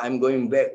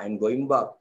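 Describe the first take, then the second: First: Said in the usual way. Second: "back" said with an open Filipino a, like bak, in a Filipino accent; a Filipino accent on "I'm going back", the vowel of back flat. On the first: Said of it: "Kita cakap". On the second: Shown as a demonstration. Teacher showing students a Filipino accent on "back". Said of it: "orang Filipin cakap".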